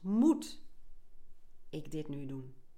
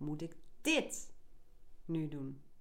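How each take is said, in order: First: The stress is on the word moet. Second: The stress is on the word dit. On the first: "De eerste keer leg je de klemtoon op het eerste woord" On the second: "En de derde"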